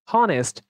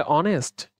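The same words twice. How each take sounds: First: "হনেস্ট" with an audible initial h; h pronounced. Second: "অনেস্ট" starting straight on the vowel; silent h. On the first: Teacher showing the mistaken form, h sounded in "হনেস্ট". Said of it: "না হলে আমরা কি এটাকে বলি হনেস্ট". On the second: Teacher showing the spoken form, h silent in "অনেস্ট". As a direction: drop the h in "অনেস্ট". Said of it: "আমরা এটা কি বলে". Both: Shown as a demonstration.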